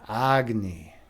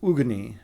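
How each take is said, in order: First: The name is said in three syllables, like 'agony'. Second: The name is said in two syllables, starting 'ug'. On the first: It is a deliberately absurd, jokey version of the name. The speaker calls it wrong. "I took the Chicago twist and was calling it Agni" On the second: It is the traditional pronunciation from the mythology. The speaker calls it right. "or actually it's Ugni"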